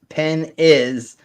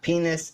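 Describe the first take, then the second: First: It is split into two separate words. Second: It is said as a single joined word. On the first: It means a nice ice cream. "if you split it like this" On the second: It names a body part. "penis is the same in Norwegian"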